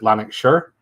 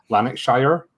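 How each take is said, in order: First: The name is said in the local Scottish way. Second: The name is said in a general, non-local way. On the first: This is how locals say it. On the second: This is how outsiders usually say it.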